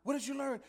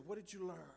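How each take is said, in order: First: Repeated "What did you learn?" much higher and louder, "What" punched; daddy pressing the question. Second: Daddy asking. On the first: Father pressing his son about school, emphatic. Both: Retold or imitated. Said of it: "he said".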